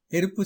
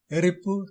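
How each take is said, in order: First: எரிப்பு with a light tapped r; எரிப்பு, r not trilled; correct ர. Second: எரிப்பு with r rolled as ற; எரிப்பு with heavy ற; wrong ர. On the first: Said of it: "சரி". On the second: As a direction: say எரிப்பு with hard trilled r. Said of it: "தவறு". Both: Shown as a demonstration.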